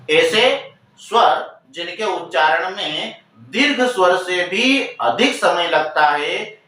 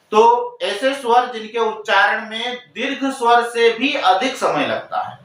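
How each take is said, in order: First: Slower, stressing each word; slow, deliberate repeat. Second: Said in the usual way. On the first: Shown as a demonstration. Teacher slowly repeating the definition for students. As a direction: spell it out again slowly so students catch it. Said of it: "teacher repeats the definition slower". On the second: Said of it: "teacher repeats the definition".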